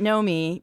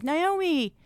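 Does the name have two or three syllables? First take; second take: two; three. First: The name is said with two syllables. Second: The name is said with three syllables. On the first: The speaker calls it right. "I pronounce it Nomi because I'm from Israel" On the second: The speaker calls it wrong. "they're like, Naomi"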